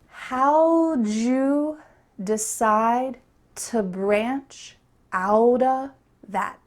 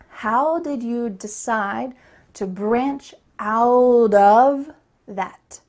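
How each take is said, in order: First: 'How did' is reduced and run together. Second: 'How did' is said fully and clearly. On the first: "say it together in the reduced way" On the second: "I'm going to say it again clearly"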